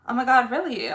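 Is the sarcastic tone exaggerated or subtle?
subtle. The sarcasm is light and understated. The speaker calls it right. "It's better to be like"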